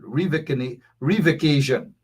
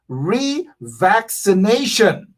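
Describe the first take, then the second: First: The word is said as revocation. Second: The word is said as revaccination. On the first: The speaker calls it wrong. "That is how Irfan Ali would have pronounced that word" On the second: The speaker calls it right. "But it's actually revaccination"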